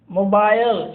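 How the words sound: It is said in a British accent.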